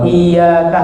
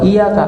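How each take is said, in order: First: The y sound is doubled and held long. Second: The y sound is single and short. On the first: Only you do we worship. The speaker calls it right. "hanya kepada engkau kamu beribadah" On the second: Beware of you. The speaker calls it wrong. "Kalau iya kan nggak ada tasdid, itu jadi uh, hati-hatilah kamu"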